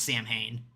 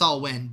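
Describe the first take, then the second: First: The name is said with an 'm' sound. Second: The name is said without an 'm' sound. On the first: This is how the band's singer always said it. "he always pronounced it as Samhain" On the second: This is the technically correct pronunciation. "technically pronounced Salwyn"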